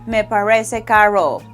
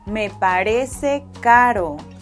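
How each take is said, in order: First: The R is an English-style R sound. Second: The R is a soft, quick tap. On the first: The speaker calls it wrong. "don't say" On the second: The speaker calls it right.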